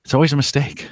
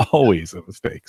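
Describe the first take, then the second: First: Said in the usual way. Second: Laughing through the repeat. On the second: Real, not acted. Repeating his own admission with a rueful laugh. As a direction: let the laugh carry the words.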